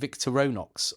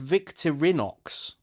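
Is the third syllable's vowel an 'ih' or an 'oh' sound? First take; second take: oh; ih. First: The third syllable has an 'oh' vowel. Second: The third syllable has an 'ih' vowel. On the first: The speaker calls it wrong. "I think I was saying Victoronox a lot in the video" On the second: The speaker calls it right. "but it's Victorinox"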